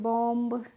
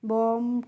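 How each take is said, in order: First: The final b is pronounced. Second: The final b is silent. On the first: The speaker calls it wrong. "हो सकता है कि आपको rule नहीं पता है" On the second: The speaker calls it right. "आपको rule पता होगा तभी तो इनको पढ़ेंगे"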